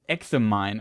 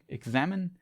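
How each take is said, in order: First: The stress falls away from the second syllable. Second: The stress falls on the second syllable. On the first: "it could also be pronounced" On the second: "the second syllable is uh, the stress on"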